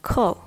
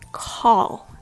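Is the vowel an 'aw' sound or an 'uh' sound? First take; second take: uh sound; aw sound. First: The vowel is a short 'uh' sound. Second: The vowel is an open 'aw' sound. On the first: The speaker calls it right. "say cull" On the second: The speaker calls it wrong. "Don't say call"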